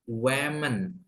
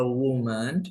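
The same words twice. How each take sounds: First: "women" said as WE-men, falling. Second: "woman" said as WU-man, rising. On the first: Teacher shows class the plural, "women" pronounced WE-men. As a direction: say "women" with an eh sound first, WE-men. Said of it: "kalau E bacanya women". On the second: Teacher shows class the singular, "woman" pronounced WU-man. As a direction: say "woman" with an oo sound first, WU-man. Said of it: "A itu bacanya woman ya". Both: Shown as a demonstration.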